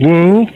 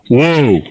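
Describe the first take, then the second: First: It is said softly and tentatively. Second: It is said firmly and commandingly. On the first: It only asks the animal to stop. The speaker calls it wrong. "you're going whoa, whoa, or you know, like that" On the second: It orders the animal to stop. The speaker calls it right. "instead of whoa ... definitive in demanding ... commanding"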